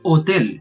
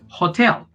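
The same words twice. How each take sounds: First: The word begins directly with the vowel, h silent. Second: The word begins with an audible h sound. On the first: "But in Spanish, we don't say that. We say H. Honor, hotel" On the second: "In English, you say hatch. For example, yes, hot or hotel"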